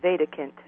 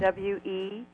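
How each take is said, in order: First: The first vowel is a German 'eh' sound. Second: The first vowel is a long 'ee' sound.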